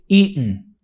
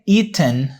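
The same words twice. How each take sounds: First: It is said in the common American way. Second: It is said in a less common, non-American way. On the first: "it's more common in America to say eaten" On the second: "you can say eaten, no problem"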